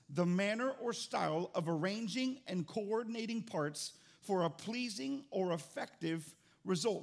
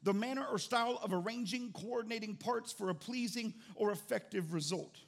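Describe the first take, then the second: First: It is read more slowly. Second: It is read fast.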